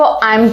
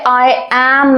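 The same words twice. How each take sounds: First: It is said as one contracted word. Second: It is said as two full separate words. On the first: The speaker calls it right. "इसको आई एम कहा जाएगा" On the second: The speaker calls it wrong. "इसको natural rhythm नहीं कहते"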